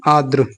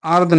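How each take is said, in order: First: आर्द्र as aad-ru, r after d; corrected cluster. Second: आर्द्र as aard, without last r; wrong cluster. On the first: Teacher correcting students, आर्द्र ending in dru. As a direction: end आर्द्र on a dr sound. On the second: Teacher rejecting an error, आर्द्र cut to aard. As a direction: drop the final r of आर्द्र. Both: Shown as a demonstration. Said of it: "नहीं".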